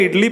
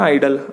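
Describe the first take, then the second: First: It starts with "ih" and ends in "lee". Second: It starts with "eye" and ends in "dl". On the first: The speaker calls it wrong. "उस आइडल को मैंने इडली pronounce कर दिया था" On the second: The speaker calls it right. "I D L E बोलते हैं उसको"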